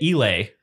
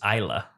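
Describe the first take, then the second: First: The word ends with an 'ay' sound. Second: The word ends with an 'uh' sound. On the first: The speaker calls it wrong. "we've been pronouncing it Islay" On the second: The speaker calls it right. "the correct pronunciation turns out is Isla"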